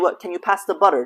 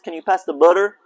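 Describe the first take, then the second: First: It is said in an Eastern accent. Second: It is said in a Texan accent.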